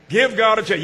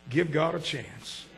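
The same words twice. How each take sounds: First: Firm call. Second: Soft plea. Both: Shown as a demonstration.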